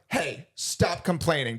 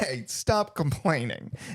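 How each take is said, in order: First: It sounds genuinely mad and annoyed. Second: It sounds genuinely amused, with laughter.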